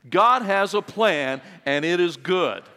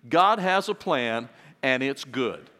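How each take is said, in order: First: It is said with strong passion and energy. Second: It is said in a plain, calm way. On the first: "Now let's say it with a little bit of passion" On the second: "Would you say that with me?"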